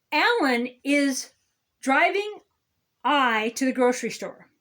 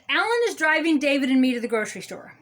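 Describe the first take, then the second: First: "Alan is", "driving", "I" set apart by long pauses; halting demonstration. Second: Quick, run-together example sentence; brisk correct version. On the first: Grammar scold showing the wrong sentence, halting before "driving" and "I". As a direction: break it up, pausing before "driving" and before "I". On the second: Grammar scold giving the proper sentence, brisk and unbroken. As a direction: rattle the sentence off without pauses. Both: Shown as a demonstration.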